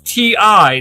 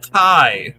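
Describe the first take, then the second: First: It is said as two separate letters. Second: It is said as one single syllable. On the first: The speaker calls it right. "It's T I" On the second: The speaker calls it wrong. "not Ty"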